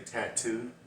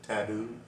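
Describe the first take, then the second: First: The middle consonant sounds like a t. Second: The middle consonant sounds like a d. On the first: This is how Americans say it. "We actually say tattoo" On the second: This imitates how someone from another country says it. "like T A D O O. That's how it sounds like she pronounced it"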